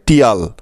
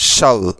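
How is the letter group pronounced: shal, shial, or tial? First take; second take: tial; shal. First: It is pronounced as tial, with a t sound. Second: It is pronounced as shal, with one vowel. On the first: The speaker calls it wrong. "কেউ এটাকে উচ্চারণ করে টিয়াল" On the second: The speaker calls it right. "এই অংশটার সঠিক উচ্চারণ হবে শাল"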